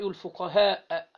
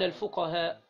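First: The word ends in a long vowel and glottal stop. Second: The word ends in a short vowel without glottal stop. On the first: "حققت الهمزة مد اهو" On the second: "وممكن تقصر تقول ايه؟"

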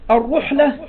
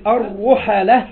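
First: The ḥ carries no vowel after it. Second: The ḥ is followed by an 'a' vowel. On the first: One who traveled the lands gathering knowledge. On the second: One to whom people travel for knowledge.

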